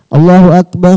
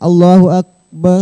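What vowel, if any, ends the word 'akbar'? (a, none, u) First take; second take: none; u. First: The word akbar ends with no vowel. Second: The word akbar ends with a 'u' vowel.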